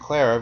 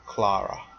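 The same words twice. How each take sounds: First: The name is said with an American pronunciation. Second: The name is said with a British pronunciation.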